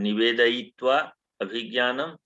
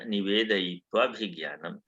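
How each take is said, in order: First: The two words are said separately, unjoined. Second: The two words are run together as one.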